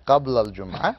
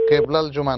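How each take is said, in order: First: The first vowel sounds like 'a'. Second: The first vowel sounds like 'e'. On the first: The speaker calls it right. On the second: The speaker calls it wrong. "কেবলাল জুমা নয় ভাই"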